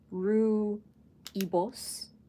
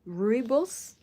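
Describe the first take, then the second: First: Said with an 'ee' sound after 'roo'. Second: Said as two syllables, without the 'ee' sound.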